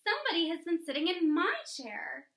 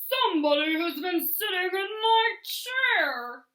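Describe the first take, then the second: First: It is said in a sweet, low voice. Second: It is said in a loud, growly voice.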